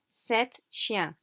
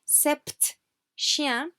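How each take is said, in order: First: Sept is said with no P sound. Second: Sept is said with a P sound. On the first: The speaker calls it right. "we do not pronounce the P" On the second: The speaker calls it wrong. "do not say sept chien. However tempting, because that's not correct French"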